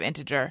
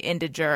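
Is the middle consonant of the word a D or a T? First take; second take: T; D. First: The middle consonant sounds like a T. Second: The middle consonant sounds like a D. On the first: This is the usual pronunciation. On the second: This is how someone else said it.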